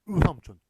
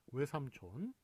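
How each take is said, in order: First: The first vowel is a single pure vowel. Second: The first vowel glides like 'we'. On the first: "단모음은 으. ... 으삼촌 이런 식으로 발음을 해야 원래 맞다는 거예요" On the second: "다 어떻게 발음해요? 예, 외삼촌"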